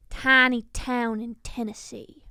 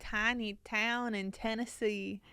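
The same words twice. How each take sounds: First: Slow, louder Southern drawl; friend's Tennessee line in a hammed-up drawl; country accent. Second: A slow, tentative Southern try; copying the friend's drawl, half-hearted; attempted country accent. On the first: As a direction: lay the Tennessee twang on thick. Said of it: "he would always go". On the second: Shown as a demonstration. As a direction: try out the Tennessee twang carefully. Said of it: "See, it's not bad".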